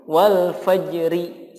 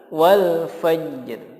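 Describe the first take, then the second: First: The final r is followed by a vowel. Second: The final r is heard with no vowel. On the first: The speaker calls it wrong. "dibaca diharokati" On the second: The speaker calls it right. "yang betul adalah wal fajr"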